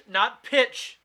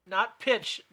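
First: High pitch. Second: Said in the usual way. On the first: Shown as a demonstration. Correcting the falsetto idea, pitch jumps up. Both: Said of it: "not pitch, but what accent".

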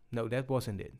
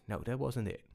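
Both takes have the same delivery.

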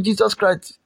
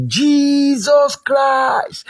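First: Said in the usual way. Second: High, very slow calling cry; drawn-out shout. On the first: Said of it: "After shouting". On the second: Shown as a demonstration. Preacher showing the congregation how to shout, drawn-out cry. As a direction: stretch the name out as a high call. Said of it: "shout it very well".

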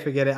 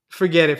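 First: Said in the usual way. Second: Sharp louder burst; defeated. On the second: Acted. Brandon to his cousin, a louder panicked burst. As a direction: blurt it out, louder.

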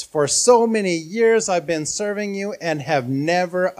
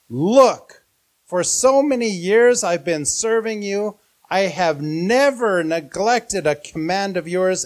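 First: A touch louder, indignant retelling; raised voice. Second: Raised, indignant voice at the father; enraged son. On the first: Son angrily raising his voice at his father, mildly loud. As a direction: press the complaint harder. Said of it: "So angry that he raises his voice". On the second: Eldest son angrily confronting his father, raised voice. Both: Acted.

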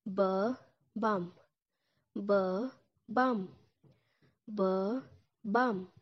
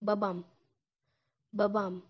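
First: "B-bum" stretched, bah... bahm; slow syllable by syllable "B-bum"; drawn-out teaching form. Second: "Babam" with a clear final m; my dad in Turkish, spoken for a learner. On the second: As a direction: say "Babam" as bah-bahm. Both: Shown as a demonstration. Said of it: "it will sound like this".

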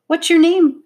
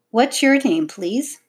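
First: High, loud, eager blurt; sudden excited child's question. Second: Careful, higher-pitched polite question; well-mannered child's enquiry; polite asking. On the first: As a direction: burst out with the question. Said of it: "blurted out the dark-haired younger girl". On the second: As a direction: ask courteously after being corrected. Child re-asks politely after correction. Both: A narrator's reading.

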